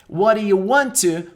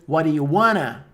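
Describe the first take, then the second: First: Want to is said as two full words. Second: Want to is blended into one word, wanna.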